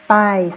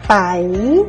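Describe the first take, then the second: First: The word is said on a level mid tone. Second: The word is said with a rising tone. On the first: "le ton normal c'est paille"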